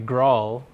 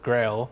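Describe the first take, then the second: First: The vowel sounds like the one in 'doll'. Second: The vowel sounds like the one in 'rail'. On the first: "is the officially uh, supported pronunciation of the term" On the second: "which is titled Experiments with Grail"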